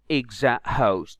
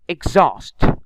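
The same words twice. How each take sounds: First: An h sound is heard in the middle. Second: No h sound is heard in the middle. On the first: The speaker calls it wrong. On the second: The speaker calls it right.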